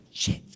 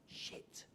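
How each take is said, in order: First: Sharper, more forceful muttered curse; emphatic dismay. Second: Barely audible whispered curse; whispered dismay. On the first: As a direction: let the curse burst out. Repeats the thought more forcefully. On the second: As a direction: whisper it to yourself as it sinks in. Retells his dismayed thought in corner. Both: Retold or imitated.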